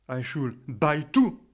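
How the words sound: The stress is on the word buy. The tickets should be given, not bought. "je vais insister sur le verbe buy"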